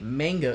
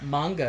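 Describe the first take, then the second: First: The word is said in a Western English way. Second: The word is said in a Japanese-style way. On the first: The speaker calls it wrong. "Manga is with a fat western tongue" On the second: The speaker calls it right. "if you're pronouncing it correctly"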